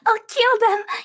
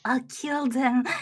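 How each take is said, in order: First: It is said in a normal voice. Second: It is said in a low, dangerous voice.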